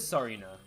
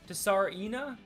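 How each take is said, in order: First: The initial T is silent. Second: The initial T is pronounced. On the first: "T is so it is Sarina" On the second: "Do you say the T?"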